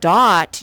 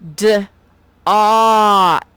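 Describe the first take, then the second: First: The word is said quickly as one unit. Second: The word is drawn out into separate sounds. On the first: "instead of saying dot" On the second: "you will stretch it out into the sounds"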